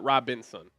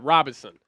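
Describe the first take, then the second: First: The name is said with an N sound inside. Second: The name is said without an N sound inside. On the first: The speaker calls it wrong. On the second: The speaker calls it right.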